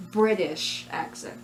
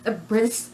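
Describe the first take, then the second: First: Said in the usual way. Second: Fumbled, cut-off "British"; mispronounced. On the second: Real, not acted. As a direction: stumble on "British", garbling its ending. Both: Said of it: "ah, I said it again".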